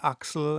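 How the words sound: The name is said with German pronunciation. "I pronounced him in the German way"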